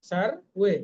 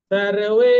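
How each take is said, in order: First: Said in the usual way. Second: সর্বে loud with a long final e; long vowel. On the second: Shown as a demonstration. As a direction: stretch the e of সর্বে. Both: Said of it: "একার আছে, এটা দীর্ঘ হবে।".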